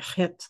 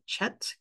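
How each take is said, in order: First: The word starts with a guttural throat sound. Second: The word starts with a 'ch' sound. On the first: The speaker calls it right. "like a very kind of guttural pronunciation" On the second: The speaker calls it wrong. "maybe English pe- speaking people would pronounce it chet because it starts with a C H"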